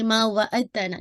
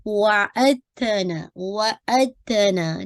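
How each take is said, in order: First: वअदतना with the dal sounded; wrong reading. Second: वअदतना drawn out slowly with dal merged into ta; correct slow recitation. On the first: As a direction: demo the wrong take. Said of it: "तो आप इसको ये नहीं पढ़ेंगे". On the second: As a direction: demo the right take, slowly. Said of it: "नहीं". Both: Shown as a demonstration.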